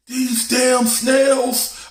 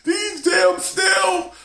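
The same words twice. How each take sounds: First: High, slow, drawn-out yell of the snails; dad bellowing at the tank; mock dad yell. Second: Very high, slow shouted snails; dad yelling from the other room; mock dad shout. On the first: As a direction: stretch it out in a high howl. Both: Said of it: "My dad was yelling".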